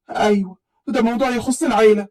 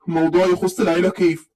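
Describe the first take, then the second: First: Said in the usual way. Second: Put-on suspicious young man. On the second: A narrator's reading. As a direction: lower voice, questioning العيلة with a falling doubt. Taher echoes her suspiciously. (بصوت رجالي واطي ومتشكك في كلمة العيلة)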